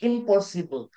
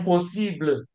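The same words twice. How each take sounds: First: The word is pronounced the English way. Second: The word is pronounced the French way.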